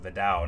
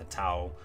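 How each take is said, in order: First: The name begins with a D sound. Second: The name begins with a T sound. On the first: The speaker calls it right. "The T's are D sounds" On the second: The speaker calls it wrong. "not the Tao"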